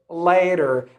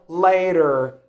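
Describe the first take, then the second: First: The middle T sounds like a soft D. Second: The middle T sounds like a soft D.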